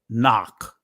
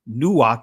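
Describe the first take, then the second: First: The first vowel is an open ah sound. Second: The first vowel is a rounded oh or oo. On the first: The speaker calls it right. "so the ancient word is knock" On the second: The speaker calls it wrong. "that means that Nuak is an incorrect pronunciation"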